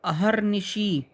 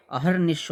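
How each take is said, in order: First: अहर्निशी with long final "shee"; wrong word ending. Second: अहर्निश closing on "sh"; correct word ending. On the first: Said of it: "अहर्निशी नहीं". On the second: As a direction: end अहर्निश without a vowel. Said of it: "होता है". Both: Shown as a demonstration.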